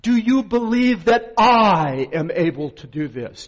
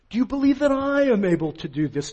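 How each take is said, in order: First: "you" pressed hard in "Do you believe"; "Do YOU believe that I am able to do this?" with YOU stressed. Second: "I am able" with "I" lifted higher; "Do you believe that I am able to do this?" with I stressed. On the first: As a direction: lean on the word "you", louder line. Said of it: "I'm gonna accent it for you the right way". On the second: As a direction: point the stress at "I", at him. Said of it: "put the accent where it belongs, on him". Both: Shown as a demonstration.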